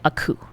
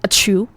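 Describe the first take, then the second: First: The second syllable starts with a k sound. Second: The second syllable starts with a ch sound. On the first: "I don't say a coup" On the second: "I say a chew"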